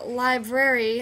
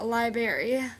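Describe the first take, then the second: First: The word is said with all its sounds. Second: The word is said with a sound dropped. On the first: The speaker calls it right. "pronouncing words correctly" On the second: The speaker calls it wrong. "instead of"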